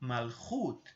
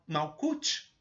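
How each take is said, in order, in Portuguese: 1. É pronunciada do jeito hebraico. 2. É pronunciada do jeito português. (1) "a pronúncia correta dessa sefirá é Malchut" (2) "Algumas pessoas pronunciam Mal Malkut, que é um, seria uma, uma vocalização em português"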